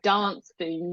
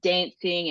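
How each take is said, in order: First: It is said in a British accent. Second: It is said in an Australian accent. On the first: "she would definitely have like the British pronunciation of things" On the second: "here I am sitting saying dancing and castles"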